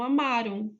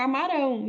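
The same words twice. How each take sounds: First: "amaram" stressed on middle "ma", final "ram" unstressed; stress on penultimate syllable. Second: "amarão" with the accent pulled onto final "rão"; stress on last syllable. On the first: Teacher contrasting with the future form, "amaram" stressed on the penultimate syllable. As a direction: hit the "ma" in "amaram", let "ram" fall away. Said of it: "A sílaba tônica não é a última, é a penúltima".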